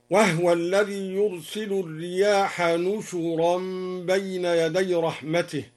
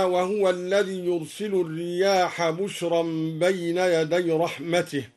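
First: نشرا read as nushuran, with a nun and a u on the shin; nun instead of ba. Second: Said in the usual way. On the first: Shown as a demonstration. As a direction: say نشرا, not بشرا. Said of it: "بالنون المضمومة مكان الباء". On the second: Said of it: "قوله تعالى".

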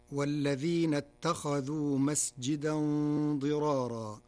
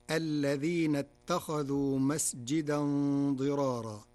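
First: "والذين" recited with the opening waw, wal-ladhina; standard reading with waw. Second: "الذين" recited with no waw, al-ladhina; Warsh reading without waw. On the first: Teacher recites the standard reading before Warsh, with waw. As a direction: chant "والذين" starting on the w sound. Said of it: "قرأ ورش كلمة "والذين". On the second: Teacher recites the Warsh variant without the waw. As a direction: drop the waw and chant "الذين". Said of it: "بحذف الواو، فتصير". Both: Shown as a demonstration.

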